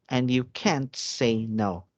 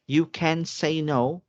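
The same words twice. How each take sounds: First: Slow line with "can't" close to "can", short T; contrasting CAN'T. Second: Slow line with CAN said fully, pitched up; clear CAN. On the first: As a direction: say "can't" slowly, barely marking the T. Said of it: "that it's can't". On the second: Teacher contrasting can with can't, slow and higher on "can". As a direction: spell out the positive with a full, slow "can". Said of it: "sometimes you think it's can". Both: Shown as a demonstration.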